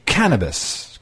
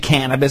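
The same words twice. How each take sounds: First: The word is said in a posh, elitist way. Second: The word is said in a plain, ordinary way. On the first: The speaker sounds legitimate and refined. The speaker calls it right. "you also have to pronounce it a little elitist" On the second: The speaker sounds like a casual user. The speaker calls it wrong. "It can't just be cannabis"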